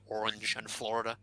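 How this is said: It is said with a general American accent.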